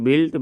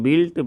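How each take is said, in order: Both takes have the same delivery.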